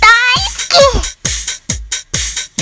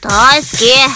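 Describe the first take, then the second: First: It is said cheerfully, full of energy. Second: It is said in an angry tone.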